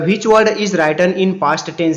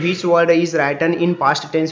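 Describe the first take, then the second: First: Slow read-aloud. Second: Repeating the question word by word, very slowly; a second slow reading of the question for the class; slow read-aloud. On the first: Teacher reads exam question aloud. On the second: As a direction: read it again for dictation, slow and even. Teacher repeats exam question. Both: Shown as a demonstration.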